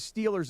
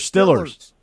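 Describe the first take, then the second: First: The first vowel is a long 'ee' sound. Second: The first vowel is a short 'i' sound. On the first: This is the usual way outside Pittsburgh. "the Steelers are not the Steelers in Pittsburgh" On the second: This is how locals in Pittsburgh say it. "They're the Stillers"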